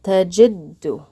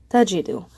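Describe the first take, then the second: First: "tajiddu" with the d held and said twice; doubled d. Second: Said in the usual way. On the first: Shown as a demonstration. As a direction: pause on the d in "tajiddu", then say it again. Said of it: "we're gonna pronounce it tajiddu".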